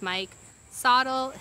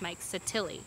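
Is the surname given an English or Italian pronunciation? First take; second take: English; Italian. First: The surname has a non-Italian pronunciation. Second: The surname has an Italian pronunciation. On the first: The speaker calls it wrong. "I have pronounced two things wrong" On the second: The speaker calls it right. "So it is the Italian pronunciation"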